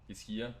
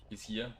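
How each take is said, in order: Both takes have the same delivery.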